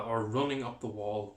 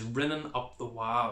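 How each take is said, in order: First: Said in the usual way. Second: "rinning up the wa-" with an i in rinning and no l at the end of wa; Ulster Scots pronunciation. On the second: Shown as a demonstration.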